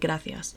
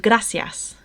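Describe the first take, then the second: First: The c is said as a th sound. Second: The c is said as an s sound. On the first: This is the traditional form in Spain. "traditional Castilian Spanish will say" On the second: This is the form usual in Latin America. "which is more used in Latin America"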